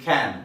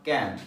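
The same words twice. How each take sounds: First: The word is said with a standard accent. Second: The word is said with a Bengali accent. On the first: The speaker calls it right. "It should be ক্যান" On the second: The speaker calls it wrong. "যারা Bengali or Indians আমরা ক্যান বলি। It is not ক্যান"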